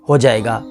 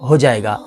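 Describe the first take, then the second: No difference in how they are said.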